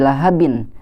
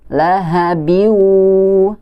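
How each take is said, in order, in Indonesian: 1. Bunyi n di akhir dibaca dengan jelas. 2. Bunyi n menyatu menjadi bunyi w sengau. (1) "tidak dibaca lagi lahabin" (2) "dimasukkan ke huruf wa-nya"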